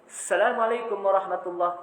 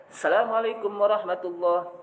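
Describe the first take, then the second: The two takes are said the same way.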